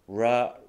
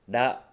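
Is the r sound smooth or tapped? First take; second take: smooth; tapped. First: The tongue glides without touching the ridge. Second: The tongue taps the ridge behind the teeth. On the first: "R の発音はそこに舌が触れないんですね" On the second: "日本語のラ行だと、前歯の後ろの歯茎に舌が触れますよね"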